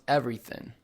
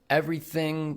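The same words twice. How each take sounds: First: The final g sound is dropped. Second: The final g sound is pronounced.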